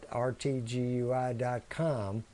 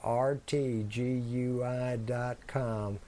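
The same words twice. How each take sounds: First: The address is said at a quick pace. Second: The address is said at a slow pace.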